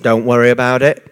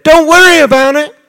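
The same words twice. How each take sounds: First: Low, unhurried, soothing; calm reassurance. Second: High, louder, incredulous parroting; mocking echo. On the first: Retold or imitated. Jesus reassuring the grieving sisters, low calm soothing. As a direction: settle her fears gently, dropping the pitch low. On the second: Grieving sister repeating Jesus' words, high incredulous mocking. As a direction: throw his words back in disbelief, pitched up.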